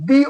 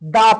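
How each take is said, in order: First: The word ends in a long 'ee' vowel. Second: The word ends in a short 'uh' vowel. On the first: The next word starts with a vowel. "কারণ ওটা কি ভাওয়ালস না?" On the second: The next word starts with a consonant. "এই পিটা consonant যার কারণে আমরা তখন উচ্চারণ করবো কি দা পেন।"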